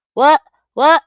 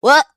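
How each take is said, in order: First: Loud high What in disbelief; shocked shout. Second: Said in the usual way. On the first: Real, not acted. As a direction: yell it, stunned.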